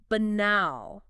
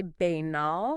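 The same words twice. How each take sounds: First: "banal" slow, stressed on the second syllable; correct stress. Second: "banal" as BAY-nal, first syllable stressed; wrong stress. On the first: Host modelling the word, correct stress. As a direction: say "banal" as buh-NAHL, drawn out. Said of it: "emphasis on the wrong syllable". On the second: Host admitting her tempting version, wrong stress. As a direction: hit the start of "banal", long ay. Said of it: "I wanna say banal". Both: Shown as a demonstration.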